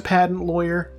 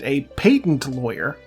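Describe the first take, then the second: First: Patent is said with an ordinary pronunciation. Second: Patent is said with an imitated, different pronunciation. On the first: This is the narrator's own way of saying it. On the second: This is how the person in the story says it.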